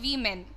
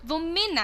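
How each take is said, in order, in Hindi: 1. पहले अक्षर में लंबा 'ee' स्वर है। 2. पहले अक्षर में छोटा 'i' स्वर है। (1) "You don't call it we men" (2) "It is women actually"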